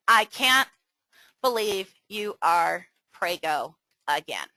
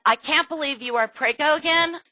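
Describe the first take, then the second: First: Flat, let-down disbelief; disapproving reading. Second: Bright, delighted take on the news; upbeat congratulating tone; cheerful reading. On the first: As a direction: say it as if it's bad news. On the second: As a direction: read it as happy surprise. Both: Shown as a demonstration. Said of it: "Can you see how one could be completely misrepresented".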